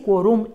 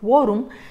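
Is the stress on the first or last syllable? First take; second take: last; first. First: The stress falls on the last syllable. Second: The stress falls on the first syllable. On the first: The speaker calls it wrong. "como dice quorum" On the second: The speaker calls it right. "lo que esperamos que diga es quorum"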